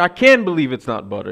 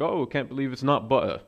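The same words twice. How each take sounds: First: Loud, indignant retold protest; hammed-up exasperation, raised and loud; mock outraged outburst. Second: Rough attempt at a British accent. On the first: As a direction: act out blurting the slogan in disgust. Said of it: "he storms out". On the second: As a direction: read a commercial line with an amateur British lilt. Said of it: "that's a British accent".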